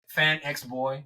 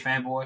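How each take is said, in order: First: The letter X is spoken between the words. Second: The letter X is left silent between the words. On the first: "It's like Fan X Boy" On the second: "but you just say Fanboy"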